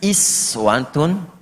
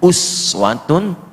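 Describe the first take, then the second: First: The word begins with an 'i' vowel. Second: The word begins with an 'u' vowel. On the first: "Ayat ini bisa dibaca juga dengan kasrah"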